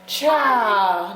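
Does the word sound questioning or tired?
tired. It is said in a weary, tired tone. The speaker is worn out. "that means you tired"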